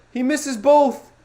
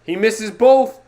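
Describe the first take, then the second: First: Disbelieving cry. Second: Stunned shout. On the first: Repeating the miss, disbelief. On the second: Watching a missed free throw. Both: Real, not acted.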